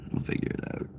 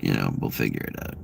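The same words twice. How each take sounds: First: Breathy whisper, no voice. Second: Said in the usual way. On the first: Acted. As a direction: hush it to yourself. Whispered repeat of the line.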